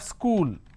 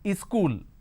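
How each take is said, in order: First: It starts directly with the s sound. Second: An extra e vowel comes before the s. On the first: "So we have school" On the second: "they add another vowel sound in front, and that is E sound"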